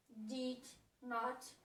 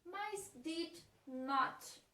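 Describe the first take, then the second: First: Said in the usual way. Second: Did not, spelled out very slowly word by word; slow teaching read of did not; slow demo. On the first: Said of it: "que a junção é didn't". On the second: Shown as a demonstration. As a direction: drag did not out for the class.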